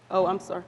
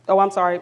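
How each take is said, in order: First: Said in the usual way. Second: Repeats the apology louder so the room hears. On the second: Real, not acted. Presenter apologizing to the audience, loud apology. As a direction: raise your voice to apologize to the whole room.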